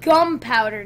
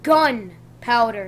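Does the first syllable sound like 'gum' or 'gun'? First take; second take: gum; gun. First: The first syllable is said as 'gum'. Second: The first syllable is said as 'gun'. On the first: The speaker calls it wrong. "not gunpowder" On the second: The speaker calls it right. "Does that look like gum?"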